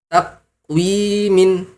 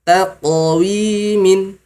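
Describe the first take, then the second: First: The q is closed without any echoing release. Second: The q is released with a bouncing echo. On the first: The speaker calls it wrong. "tidak ada qalqalah" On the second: The speaker calls it right. "diqalqalahkan, dipantulkan"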